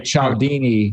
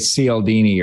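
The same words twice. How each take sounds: First: The name is pronounced with Italian sounds. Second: The name is pronounced with American English sounds. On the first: "if you're Italian, you'd say Cialdini" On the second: "in America, we'd probably say Cialdini"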